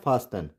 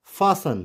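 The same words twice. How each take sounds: First: "fasten" as FAS-TEN, T pronounced; wrong sounded T. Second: "fasten" as FASS-un, no T; silent T. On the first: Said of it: "not fasten". ("fasten" में टी बोलकर, फास्टन) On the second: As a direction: leave the T out of "fasten". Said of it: "it's fasten". ("fasten" में टी silent, फासन) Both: Shown as a demonstration.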